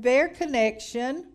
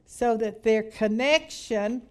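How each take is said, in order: First: "their" leaned on, slow and rising; stress on their. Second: Said in the usual way. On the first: Shown as a demonstration. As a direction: hit "their" hard and draw the phrase out slowly. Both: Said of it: "emphasis on the word".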